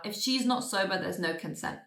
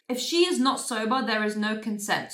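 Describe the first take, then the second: First: Said in the usual way. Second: "is" said in full, each word set apart; deliberate, measured stress on every word; emphatic restatement. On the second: Real, not acted. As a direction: firmly spell out "is not sober" and "is no consent".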